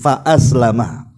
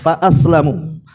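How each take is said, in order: First: The word ends with an 'a' vowel. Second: The word ends with a 'u' vowel. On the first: "pendapat yang memfathah mim" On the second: The companion stays unbelieving but is kept harmless. "bukan dibaca fathah tapi dibaca dhammah"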